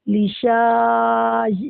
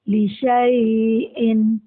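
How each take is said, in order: First: The vowel after 'sh' is drawn out long. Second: The vowel after 'sh' is short. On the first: The silent alif is wrongly pronounced. The speaker calls it wrong. "अगर हम अलिफ के साथ पढ़ेंगे तो ये ऐसा हो जाएगा लिशा, शा को खींच के" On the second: The silent alif is left unpronounced. The speaker calls it right. "लेकिन हमें ये अलिफ नहीं पढ़ना, तो हम पढ़ेंगे लिशाई इन"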